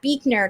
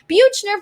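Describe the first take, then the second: First: The surname is said as Beekner. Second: The surname is not said as Beekner. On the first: The speaker calls it right. "my last name is Beekner" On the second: The speaker calls it wrong. "have mispronounced my last name"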